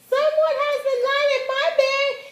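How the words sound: It is said in a small, high voice.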